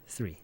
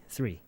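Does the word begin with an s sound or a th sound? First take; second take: s sound; s sound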